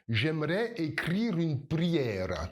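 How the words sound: It is said with rolled, tapped R sounds. "si tu viens d'un pays de l'Est, Tu vas rouler les R"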